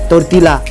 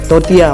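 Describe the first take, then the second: First: The third syllable starts with an L sound. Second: The third syllable starts with a Y sound. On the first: The speaker calls it wrong. "गलत है तोरतीला" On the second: The speaker calls it right. "सही है तोरतिया"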